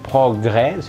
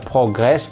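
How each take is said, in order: First: The word ends without any s sound. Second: The word ends with a pronounced s sound. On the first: The speaker calls it right. "s-nya tidak dibaca" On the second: The speaker calls it wrong. "jangan baca progress"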